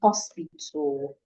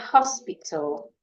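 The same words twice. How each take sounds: First: The H sound is dropped at the start. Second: It begins with a clear H sound. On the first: The speaker calls it wrong. "you're saying hospital" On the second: The speaker calls it right. "the H is not silent"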